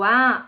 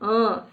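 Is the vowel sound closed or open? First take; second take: open; closed. First: The vowel is said open. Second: The vowel is said closed.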